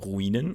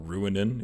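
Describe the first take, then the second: First: The name is said with a non-American pronunciation. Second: The name is said with an American pronunciation.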